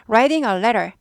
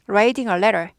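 First: The t sounds are softened to a quick flap. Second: The t sounds are softened to a quick flap.

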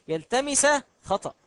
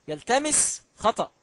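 The two takes are said the same way.

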